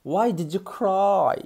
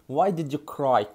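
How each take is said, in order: First: Slow, higher, word by word; slow teaching. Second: Said in the usual way. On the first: Shown as a demonstration. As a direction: give learners a slow model. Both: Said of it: "Cry معناه يبكي".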